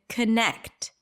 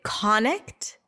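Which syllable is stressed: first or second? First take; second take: second; first. First: The stress is on the second syllable. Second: The stress is on the first syllable. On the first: The speaker calls it right. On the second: The speaker calls it wrong.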